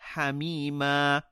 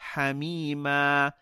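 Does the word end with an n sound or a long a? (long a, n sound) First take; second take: long a; long a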